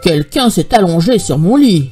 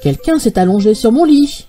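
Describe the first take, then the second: First: It is said in a big, deep voice. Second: It is said in a medium voice.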